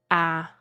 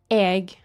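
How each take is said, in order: First: The word is an open vowel with no g. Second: The word ends with a hard g sound. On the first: This is another dialect's form. "it's the same thing, but it's a dialect thing" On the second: This is the speaker's own dialect form. "which is what I say"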